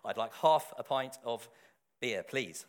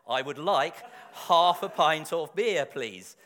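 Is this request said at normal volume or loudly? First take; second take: normal; loudly. First: The request is said at normal volume. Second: The request is said noticeably louder. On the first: "in my best accent" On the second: "speak louder"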